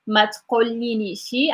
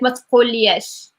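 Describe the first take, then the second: First: The word is said in a long, drawn-out form. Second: The word is said in a short, clipped form. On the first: This is how speakers of another region say it. "it sounds like very long to say all of that" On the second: This is how the speaker's own region says it. "I would say like matkoliyesh"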